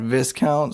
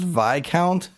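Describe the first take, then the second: First: The s in the first syllable is sounded. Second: The s in the first syllable is silent. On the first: The speaker calls it wrong. "not Viscount" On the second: The speaker calls it right. "the word is actually pronounced Viscount"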